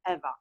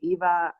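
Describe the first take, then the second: First: The name is pronounced the Polish way. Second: The name is pronounced the English way. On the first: "in Poland, uh, we pronounce the name Eva" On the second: "you can call me Eva"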